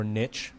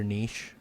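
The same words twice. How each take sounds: First: Niche with short i and a ch ending; Americanized niche, "nitch". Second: French-style niche, long ee and soft sh; niche with an ee vowel, "neesh". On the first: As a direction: say niche to rhyme with pitch. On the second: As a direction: say niche to rhyme with leash. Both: Shown as a demonstration. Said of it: "What's, what's your take?".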